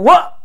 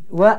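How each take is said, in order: First: The sound is said forcefully and hard. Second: The sound is said softly and gently. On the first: The speaker calls it wrong. "jangan wa" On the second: The speaker calls it right.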